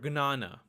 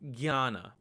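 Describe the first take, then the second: First: The word begins with a hard g-n sound. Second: The word begins with a g-y sound. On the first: This is how it is said in Gujarati. "it's pronounced as gna" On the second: This is how it is said in Hindi and Bengali. "this letter is pronounced as gya"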